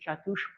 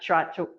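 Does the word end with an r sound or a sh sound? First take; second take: sh sound; r sound. First: The word ends with a sh sound. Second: The word ends with an r sound. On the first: The speaker calls it right. "they say Chatush, because it wouldn't sound right otherwise" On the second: The speaker calls it wrong. "it's not Chatur"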